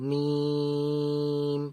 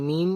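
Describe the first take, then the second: First: মিম with the long vowel held on one level note; prolonged মিম. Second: Said in the usual way. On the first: Shown as a demonstration. Teacher shows the madd in মিম, prolonged. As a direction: draw out the vowel of মিম for five beats. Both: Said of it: "টান দিয়ে বলবো".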